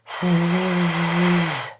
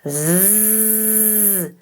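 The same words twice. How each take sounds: First: The Z sound is weak and airy. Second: The Z sound is strong and buzzy. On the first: The speaker calls it wrong. "if it's too lazy and airy, it'll sound like this" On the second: The speaker calls it right. "suddenly it's buzzy and efficient"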